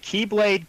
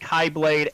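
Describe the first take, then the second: First: The first syllable sounds like key. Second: The first syllable sounds like kai. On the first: "Master Xehanort says Key" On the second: "Some pronounce it Kai"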